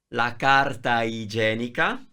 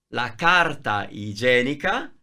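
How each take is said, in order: No difference in how they are said.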